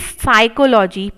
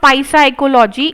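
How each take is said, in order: First: The word begins with no p sound. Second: The word begins with a sounded p. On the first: The speaker calls it right. "It is साइकोलॉजी" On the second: The speaker calls it wrong. "This is not पाई साइकोलॉजी"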